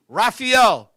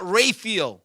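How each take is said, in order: First: RAPHAEL said "rah-fee-EL"; correct name pronunciation. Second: RAPHAEL said "ray-feel"; mispronounced name. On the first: Man teaching his own name, Raphael as "rah-fee-el". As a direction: say Raphael with an open "rah" and final "el". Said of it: "say my name wrong". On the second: Man showing how others botch it, Raphael as "ray-feel". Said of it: "Not Raphael". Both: Shown as a demonstration.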